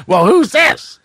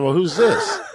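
First: Raised, slightly louder mock Leno echo; mimicking Jay Leno. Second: Said in the usual way. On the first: Leno echoes the caller's question, mock Leno voice. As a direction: toss the question right back at him. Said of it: "he goes".

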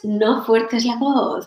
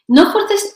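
First: Said in the usual way. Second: Strained, much higher "No fuerces"; forced voice demo. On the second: Shown as a demonstration. Coach showing a forced on-camera voice, strained high.

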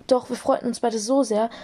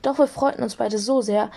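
Both takes have the same delivery.

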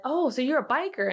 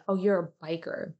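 First: Higher, mildly amused coworker question; coworker's surprise. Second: Said in the usual way. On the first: Retold or imitated. Coworker on a Zoom call asks if she's a biker, higher and surprised. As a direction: imitate a coworker's bright surprise. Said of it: "one of the ladies on the other team said". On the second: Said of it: "What does she mean by".

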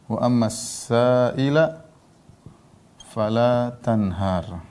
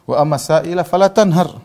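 First: Very slow, drawn-out Quran recitation; slow, measured scripture repeat for learners; word-by-word recitation. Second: Louder, higher Quran recitation in one run; raised, continuous scripture quote; full verse recitation. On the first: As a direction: stretch the verse out, pausing between phrases. Same verse repeated word by word. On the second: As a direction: recite the whole verse out firmly. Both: Acted.

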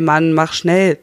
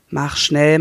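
First: Louder, pressing on schnell; urgent pressing. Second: Said in the usual way. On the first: A narrator's reading. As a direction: hurry him, harder now. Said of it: "drängt seine Frau".

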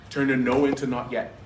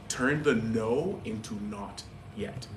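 First: Firm, punchy repeat. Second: Slow, weighty, each word set down; slow deliberate. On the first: Pastor repeating the key phrase to the church, firmly. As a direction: hit the repeat harder. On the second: Pastor slowly drilling the line into the congregation, slow and weighty. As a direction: let the phrase land slowly. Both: Shown as a demonstration.

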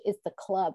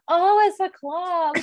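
First: Said in the usual way. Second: Higher, slow "Oh, it's a club" as the penny drops; sudden realization. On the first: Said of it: "And she". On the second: Retold or imitated. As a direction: stretch it out like it finally clicks. Sudden realization after confusion.

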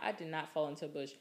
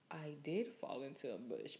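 First: Fast, mock-offended insistence; indignant denial. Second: Softer, sheepish realization; dawning admission. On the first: Retelling denying to friend she fell, indignant. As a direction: brush the claim off quickly. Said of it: "And I'm like". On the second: Retold or imitated. Retelling realizing she fell in the bush, sheepish. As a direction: let the truth sink in quietly. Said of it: "my head was like".

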